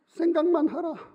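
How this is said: It is said in a changed, put-on voice.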